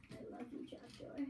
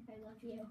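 First: Soft unvoiced whisper. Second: Said in the usual way. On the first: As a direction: breathe it like a secret. Whispers love to trapdoor.

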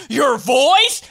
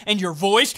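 First: High, loud, rising yell; pitched-up mock outrage; outraged question. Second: Scornful question, restrained; rising, mildly indignant; incredulous question. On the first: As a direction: repeat it in shouted disbelief. Louder repeat of the question. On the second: Acted. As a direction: raise it as a pointed complaint. First of escalating repeat.

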